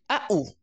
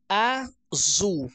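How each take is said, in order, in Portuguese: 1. Só as duas vogais são ditas, sem consoantes. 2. A palavra é dita por inteiro, com o seu som de z. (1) "vamos imaginar que essa criança diga a u" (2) "quando eu digo azul, a, zu, você escuta o, o barulho, o som, né, do z"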